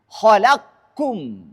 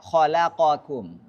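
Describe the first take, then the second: First: The q runs straight into k without a vowel. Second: A vowel separates the q and the k. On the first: This follows the reading that merges the letters. "bacanya khalaqkum" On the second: This follows the reading that keeps the letters separate. "Kalau Hafiz harus baca khalaqakum"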